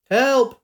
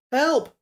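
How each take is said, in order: First: Loud, high cry for help; desperate shout. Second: High, choked cry from the water; gurgled cry for help. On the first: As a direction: shout from the rushing river. Drowning woman calling out. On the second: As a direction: call out half underwater, gurgling. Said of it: "A voice gurgled from the river". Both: Acted.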